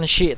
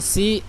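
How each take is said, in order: First: The consonant is a hushing sh sound. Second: The s is light, with the tongue low. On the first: "ataupun bukan shi" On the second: "bukan si"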